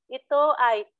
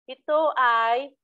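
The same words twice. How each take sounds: The two takes are said the same way.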